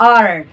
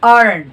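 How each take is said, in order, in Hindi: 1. आखिरी t ध्वनि छोड़ दी जाती है। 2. आखिरी t ध्वनि छोड़ दी जाती है।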